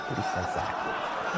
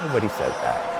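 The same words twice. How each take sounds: First: Soft unvoiced whisper, half to himself. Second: Said in the usual way. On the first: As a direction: breathe it out as a dry aside. Whispered aside after bubble joke.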